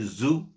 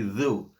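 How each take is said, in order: First: The syllable starts with a z sound. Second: The syllable starts with a th sound. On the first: The speaker calls it wrong. "don't say zu" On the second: The speaker calls it right. "say thu"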